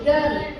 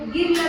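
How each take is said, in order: First: The vowel sounds like 'uh'. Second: The vowel sounds like a short 'ih'. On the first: The speaker calls it right. "ಅ sound ಹೇಳಕತ್ತೀರಿಲ್ಲ" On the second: The speaker calls it wrong. "ನೀವು ಗಿರ್ಲ್ ಅಂತ ಯಾಕನ್ಲಿಲ್ಲ"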